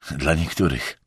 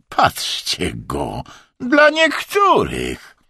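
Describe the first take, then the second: First: Low, dispassionate aside; impassive. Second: Jeering mockery. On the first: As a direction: toss it off without feeling. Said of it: "odparł beznamiętnie Emerson". (beznamiętnie, nisko) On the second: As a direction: mockingly parrot it, stretched out. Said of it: "omal nie wybuchnął szyderczym śmiechem". (szyderczo, przeciągle i piskliwie) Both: A narrator's reading.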